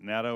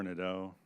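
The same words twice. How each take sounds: First: "Nadeau" said NAD-oh, with an A as in "cat"; first pronunciation option. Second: "Nadeau" said NED-oh, with an E as in "bed"; second pronunciation option. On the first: Questioner checking the admiral's name, "Nadeau" pronounced NAD-oh. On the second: Questioner asking the admiral which is right, "Nadeau" pronounced NED-oh. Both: Shown as a demonstration. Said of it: "is it Nadeau or Nadeau".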